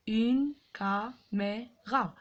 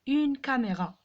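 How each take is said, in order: First: "Une caméra" in slow separate beats, une, ca, mé, ra; syllable by syllable. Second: Said in the usual way. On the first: Shown as a demonstration. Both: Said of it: "frappez les syllabes".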